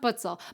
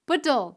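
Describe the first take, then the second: First: The middle consonant is a ts sound. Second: The middle consonant is a plain t sound. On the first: The speaker calls it wrong. "not Putzel" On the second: The speaker calls it right. "Puttel, not Putzel"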